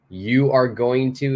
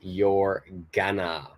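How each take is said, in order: First: Each word is said in full. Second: The words are contracted and squeezed together.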